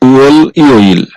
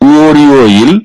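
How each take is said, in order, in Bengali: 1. দুটি অংশ আলাদাভাবে উচ্চারণ করা হয়, কোনো যোগ ছাড়া। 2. L পরের সিলেবলে যুক্ত হয়ে r-এর মতো উচ্চারিত হয়।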